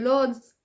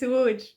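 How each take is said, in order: First: It begins with an L sound. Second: It begins with a W sound. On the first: The speaker calls it wrong. "Don't say Lodz" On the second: The speaker calls it right. "this L, okay, it's W"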